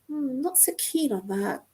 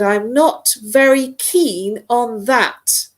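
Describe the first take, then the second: First: The speaker sounds calm and mild. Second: The speaker sounds a bit upset.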